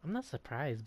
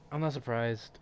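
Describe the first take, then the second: First: It is read in a sassy, zesty voice. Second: It is read in a plain, flat voice.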